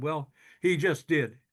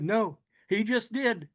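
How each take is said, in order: First: Calm, slow "he just did" with weight on "he"; stress on he. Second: "just" punched, higher and slow; stress on JUST. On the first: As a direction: lean on "he", slowly. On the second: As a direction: hit "just" hard and higher, slowly. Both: Retold or imitated.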